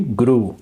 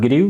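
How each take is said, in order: First: Said in the usual way. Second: "grew" wrongly said with an ee glide, like "grih-oo"; mispronounced grew. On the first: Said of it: "Yes, not grew". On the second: Shown as a demonstration. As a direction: demonstrate the mistaken "grew" with an i slipped before the oo. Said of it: "not grew".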